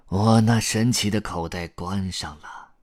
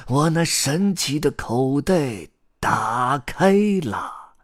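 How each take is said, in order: First: Falling, subdued spell on "关上了"; closing incantation. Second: High, slow, drawn-out spell on "打开了"; magic incantation. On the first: Grandpa Storyteller shuts his magic pocket, incanting more plainly. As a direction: wind the spell down to a close. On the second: Grandpa Storyteller opens his magic pocket for the chicks, incanting grandly. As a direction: proclaim the opening with stretched syllables. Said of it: "开始念起了他的魔法咒语". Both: A narrator's reading.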